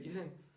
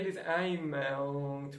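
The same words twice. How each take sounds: First: The written verb ending is left silent. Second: The written verb ending is sounded out. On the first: The speaker calls it right. "mas é esse pronuncia" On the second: The speaker calls it wrong. "Não é ils aiment"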